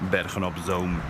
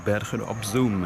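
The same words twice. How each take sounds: First: Zoom has an 'oh' vowel, the Dutch way. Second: Zoom has an 'oo' vowel, as in English. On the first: The speaker calls it right. "Double O in Dutch is O and not U" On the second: The speaker calls it wrong.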